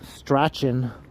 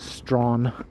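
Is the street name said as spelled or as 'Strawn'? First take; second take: as spelled; Strawn. First: The name is pronounced the way it is spelled. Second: The name is pronounced as the single word 'Strawn'. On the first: This is how out-of-towners say it. The speaker calls it wrong. "It looks like Strachan" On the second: This is how locals say it. The speaker calls it right. "but it's actually just Strawn"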